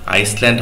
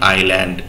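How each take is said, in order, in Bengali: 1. মাঝের s ধ্বনিটি উচ্চারিত হয়। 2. মাঝের s ধ্বনিটি অনুচ্চারিত থাকে। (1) "আইসল্যান্ড হবে না" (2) "এস এর উচ্চারণটা কিন্তু সাইলেন্ট হবে"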